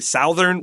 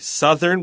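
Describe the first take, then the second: First: The first vowel is not a short u. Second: The first vowel is a short u. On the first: The speaker calls it wrong. "We don't say southern" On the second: The speaker calls it right. "with a short U sound"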